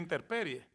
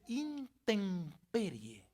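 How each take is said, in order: First: An r sound comes before the p. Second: An m sound comes before the p. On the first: The speaker calls it wrong. "no se dice interperie" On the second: The speaker calls it right. "Se dice intemperie. Recuerde que enfatizando la M"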